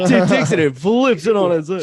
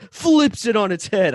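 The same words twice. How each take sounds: First: Hammed-up trailer announcer, louder, laughing; movie trailer voice. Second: Dramatic trailer announcer delivery; movie trailer voice. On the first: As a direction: boom it out like an epic trailer. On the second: Real, not acted. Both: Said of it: "I sound like a movie trailer".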